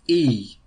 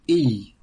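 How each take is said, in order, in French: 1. L'air passe librement sur le son. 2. L'air passe librement sur le son.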